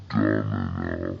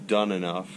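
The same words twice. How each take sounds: First: Much lower, slowed-down voice; deep slow echo. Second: Said in the usual way. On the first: Pretend. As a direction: drag it out low and heavy. Repeats the phrase, deep.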